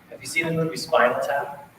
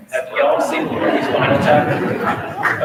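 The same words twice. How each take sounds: First: Said in the usual way. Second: Louder again, with a laugh in it; louder, laughing repeat. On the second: Real, not acted. Band director re-asks the audience louder, laughing. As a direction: call it out over the room, chuckling.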